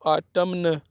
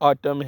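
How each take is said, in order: First: The word ends with an n sound. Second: The word ends without an n sound. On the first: The speaker calls it wrong. "आटमन नहीं है" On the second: The speaker calls it right. "आटम है, एन silent करना है"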